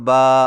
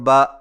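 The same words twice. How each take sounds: First: The vowel is long. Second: The vowel is short. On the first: "खड़ी ज़बर" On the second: "ज़बर"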